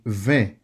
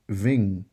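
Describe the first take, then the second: First: The vowel is a nasal 'e' sound. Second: The vowel is an English 'in' sound. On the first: The speaker calls it right. "in French, it has an E sound" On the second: The speaker calls it wrong. "I N has an E plus N sound, which is in"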